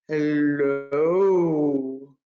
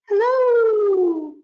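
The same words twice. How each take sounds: First: It is said in a very low voice. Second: It is said in a very high voice.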